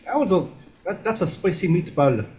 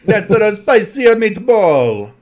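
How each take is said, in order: First: Put-on Italian accent. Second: High, slow, laughing bad Italian accent. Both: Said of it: "you're doing bad Italian accents".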